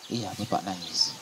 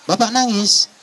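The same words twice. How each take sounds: First: Low, very soft, slow father's reply; acted downcast father; subdued admission. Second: Much higher, startled son's question; surprised question. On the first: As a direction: admit it quietly, voice dropping. Father admits he is crying. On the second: Acted. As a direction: ask it high, in acted surprise. Son finds his father crying.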